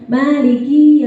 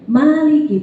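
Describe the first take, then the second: First: The final vowel ki is long. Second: The final vowel ki is short. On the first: The Day of Judgment is mine. The speaker calls it wrong. "kalau kita panjangin ki-nya" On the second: The owner or king of the Day of Judgment. The speaker calls it right. "ma panjang, ki-nya pendek"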